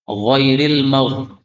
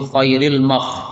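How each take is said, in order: First: The first sound is a deep voiced gh. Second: The first sound is a raised voiceless kh. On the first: The speaker calls it right. "ghair menjadi kha" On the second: The speaker calls it wrong. "jangan diganti kha"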